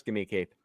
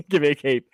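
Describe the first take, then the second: First: Muttered aside. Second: A firmer, punchier give me a cape; emphatic demand. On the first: Closing the cape joke to cohost, softer and lower. Repeating Lando's demand. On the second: Mocking Lando's cape demand to cohost, a firmer demand. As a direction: insist on the cape. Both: Retold or imitated.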